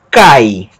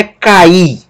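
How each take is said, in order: First: Cai as a single syllable, stress on the a; CAI, falling, never split in two; one-syllable diphthong. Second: Ca-Í, split in two with stress on the i; two syllables, ka then a punched EE; wrong hiatus. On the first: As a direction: glide from a into i within one beat of cai. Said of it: "uma sílaba só". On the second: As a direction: break cair into ka-EE, no final r. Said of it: "não é um hiato". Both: Shown as a demonstration.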